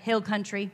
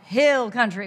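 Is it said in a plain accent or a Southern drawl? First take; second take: plain; Southern drawl. First: It is said in a plain, neutral accent. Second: It is said with a put-on Southern drawl.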